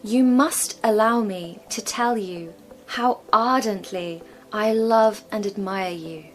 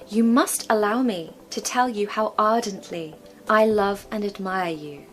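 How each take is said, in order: First: It is said at a slower pace. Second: It is said at a quicker pace.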